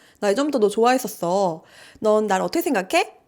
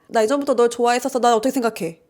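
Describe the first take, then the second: First: The two sentences are separated by a pause. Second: The two sentences run together without a pause.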